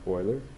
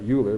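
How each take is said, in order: First: The name is said the way its owner said it. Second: The name is said as English spelling suggests. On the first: The speaker calls it right. "but his name is Euler" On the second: The speaker calls it wrong. "we think that we would pronounce that Euler"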